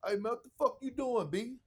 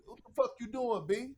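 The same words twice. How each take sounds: First: Higher, quick mock KG snap at the doctor; KG's catchphrase. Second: KG's catchphrase. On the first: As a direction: lightly imitate KG calling the doctor out. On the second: Retold or imitated. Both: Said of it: "That was his favorite".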